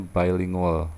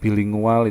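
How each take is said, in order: First: "bilingual" said as English "bai-lingual"; English pronunciation. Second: Said in the usual way. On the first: Shown as a demonstration. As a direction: open "bilingual" with a "bye" sound. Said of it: "itu kan bacanya bilingual". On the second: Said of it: "bilingual itu kan bacanya bilingual".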